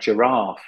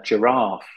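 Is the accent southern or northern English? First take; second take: southern; southern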